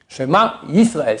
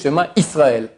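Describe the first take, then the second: First: The second word begins with a y sound. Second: The second word begins with a plain vowel. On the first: The speaker calls it right. "c'est avec un Yud. Yud, c'est comme Y" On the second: The speaker calls it wrong. "mais c'est faux"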